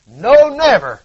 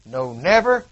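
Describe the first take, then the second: First: NO punched loud and higher on "no never"; loud climax. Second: Said in the usual way. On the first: Acted. Preacher driving the promise home, loud "no never". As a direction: hit "no" hard and let "never" fall.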